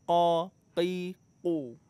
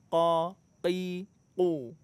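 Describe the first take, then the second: Both takes have the same delivery.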